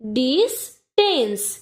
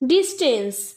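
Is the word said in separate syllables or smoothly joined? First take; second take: separate syllables; smoothly joined. First: The syllables are said separately with breaks. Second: The syllables are joined smoothly without breaks.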